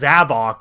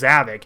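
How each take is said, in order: First: The second syllable has an 'oh' vowel. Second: The second syllable has an 'ih' vowel. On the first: This is the official pronunciation. "in Sonic Forces, you know, he's pronounced as Zavok" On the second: This is how most fans say it. "we all pronounce him as Zavik"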